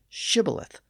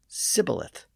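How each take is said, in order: First: The word begins with a 'sh' sound. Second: The word begins with an 's' sound. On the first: The speaker belongs to the Gileadite group. The speaker calls it right. "the S H sound at the beginning of shibboleth" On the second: The speaker belongs to the Ephraimite group. The speaker calls it wrong. "so they pronounced it sibboleth"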